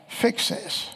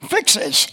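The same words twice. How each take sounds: First: Hushed, breathy "Fix this." under the breath; soft imitated plea, no voice; whispered plea. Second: Louder, pushy order thrown at God; half-laughing imitation of a bossy plea; mock demand. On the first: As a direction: whisper the order like a frightened aside. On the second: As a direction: demand it like a complaint. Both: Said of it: "they simply just cried out".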